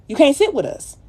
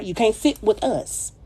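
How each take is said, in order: First: Much higher, louder, with SIT punched; emphatic snub on sit. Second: Said in the usual way. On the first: Acted. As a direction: fling the snub out loud. Repeating the snub line louder.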